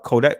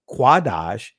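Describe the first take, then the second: First: It is said with the modern Israeli pronunciation. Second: It is said with the ancient Hebrew pronunciation. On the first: "that's of a Israeli pronunciation" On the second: "is an accurate ancient Hebraic pronunciation"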